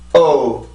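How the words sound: The vocal folds tighten, briefly catching the sound. "내가 성대를 긴장을 시키면"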